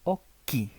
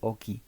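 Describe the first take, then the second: First: The middle consonant is held and prolonged. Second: The middle consonant is short, not held. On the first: The speaker calls it right. "dije occhi" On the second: The speaker calls it wrong. "no dije oki"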